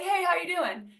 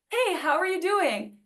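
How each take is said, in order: First: It sounds quick and uninterested, said in passing. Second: It sounds sincere and attentive, inviting an answer.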